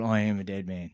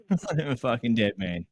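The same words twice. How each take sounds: First: Said in the usual way. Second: Laughing. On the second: Retold or imitated.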